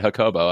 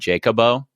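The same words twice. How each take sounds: First: The name begins with an H sound. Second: The name begins with a J sound. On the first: "she said you would pronounce that Jacobo" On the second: "I wonder if I asked for my name to be Jacobo"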